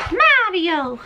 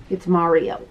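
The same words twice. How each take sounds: First: Mario sung out high and bright, pitch leaping up; drawn-out Mario. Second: Said in the usual way. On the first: Shown as a demonstration. To the viewers, showing off the Mario bag, a high playful Mario. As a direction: call out Mario playfully, stretching the name high. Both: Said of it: "I don't know why I say it like that".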